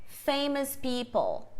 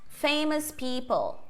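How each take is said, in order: Both takes have the same delivery.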